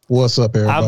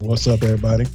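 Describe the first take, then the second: First: It is said loudly with lots of energy. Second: It is said flatly with little energy. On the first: The speaker calls it right. "Put some energy in that" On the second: The speaker calls it wrong. "you over there giving us some half-ass"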